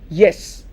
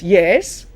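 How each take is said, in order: First: The pitch falls on the word. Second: The pitch rises on the word. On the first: It is a plain answer. "It's a statement" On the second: The speaker is surprised by the question. "it's rising"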